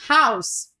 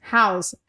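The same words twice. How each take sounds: First: "house" with a breathy H; English h sound. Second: "house" with a light breathed H; English h sound. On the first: Teacher showing Spanish J as the English H. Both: Shown as a demonstration. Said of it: "como se fosse o H do inglês".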